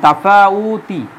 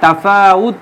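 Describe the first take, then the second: First: The word ends with a short 'i' vowel. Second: The word ends on the bare final consonant. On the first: This is the full form after a preposition. "শেষে একটা জের আছে" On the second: The reader stops at this word. "তাফাউত বলি"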